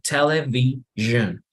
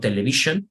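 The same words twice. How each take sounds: First: The middle sound is a voiced buzzing zh. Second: The middle sound is a plain voiceless sh. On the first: The speaker calls it right. "you pronounce like television" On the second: The speaker calls it wrong. "not television"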